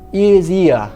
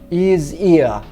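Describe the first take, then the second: First: The h sounds are dropped. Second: The same.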